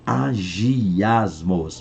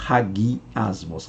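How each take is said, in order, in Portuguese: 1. A palavra começa diretamente com um som de vogal. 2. A palavra começa com um som de h aspirado. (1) "Há quem pronuncie agiasmos" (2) "Mas a pronúncia é hagiasmos"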